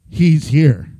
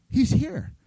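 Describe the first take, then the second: First: Low, loud declaration; a deep, loud proclamation; dramatic announcement. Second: Said in the usual way. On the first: Real, not acted. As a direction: drop the voice and boom it out. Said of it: "announces the cool part".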